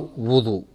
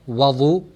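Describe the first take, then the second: First: The first vowel is a rounded u sound. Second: The first vowel is an open a sound. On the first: "there is a dhamma on the waw" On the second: "there is a fatha on the waw"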